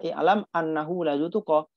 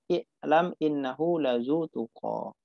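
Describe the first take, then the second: First: The second word begins with an 'a' vowel. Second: The second word begins with an 'i' vowel. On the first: The speaker calls it wrong. "Nggak boleh dibaca" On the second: The speaker calls it right. "tapi dibaca"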